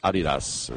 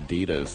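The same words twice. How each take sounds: First: It is said in a British accent. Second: It is said in an American accent.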